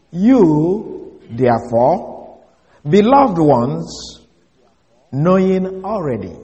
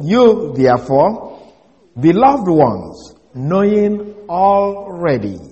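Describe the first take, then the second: First: Slow, deliberate reading of the Greek. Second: Slow, deliberate, each word set apart; slow reading. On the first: Preacher reading a literal Greek translation to the congregation, slow and deliberate. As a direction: read each word out slowly and carefully. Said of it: "Let me repeat that". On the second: Preacher repeating the Greek translation for the congregation, slow and deliberate. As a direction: read it slowly, leaning on beloved. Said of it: "exact way it reads in the Greek". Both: Shown as a demonstration.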